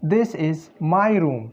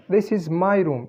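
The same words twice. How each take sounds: First: Slow, careful this is my room; teacher modelling this is my room at a slow pace; slow model sentence. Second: Said in the usual way. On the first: Shown as a demonstration. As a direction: read this is my room slowly for learners. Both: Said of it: "the sentence is".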